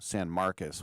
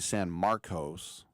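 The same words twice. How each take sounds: First: The last syllable has a U vowel. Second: The last syllable has a clear O vowel. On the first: This is how the locals say it. "they pronounce it like a U" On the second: This is how an outsider would say it. "I would say San Marcos"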